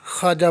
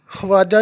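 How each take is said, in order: First: ख्वाजा said as khaajaa, the v silent; ख्वाजा read khaaja; correct pronunciation. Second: ख्वाजा said as khuwaajaa, the v sounded; ख्वाजा voiced with the v, the wrong way; wrong pronunciation. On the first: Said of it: "ख्वाजा पढ़ेंगे". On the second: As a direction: sound the v in ख्वाजा: khu-waaja. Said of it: "ख्वाजा नहीं पढ़ेंगे". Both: Shown as a demonstration.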